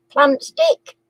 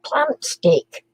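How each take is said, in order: First: "Plant stick?" asked with a rise on "stick"; guessing "Plant stick?", rising on "stick"; rising question. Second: Said in the usual way. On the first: Shown as a demonstration.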